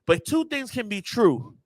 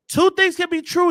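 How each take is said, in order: First: Said in the usual way. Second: TWO punched much higher and louder; emphatic repeat. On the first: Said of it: "Two things can be true, y'all". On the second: Shown as a demonstration. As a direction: hit "two" hard, high and loud. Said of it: "I know y'all don't like hearing that".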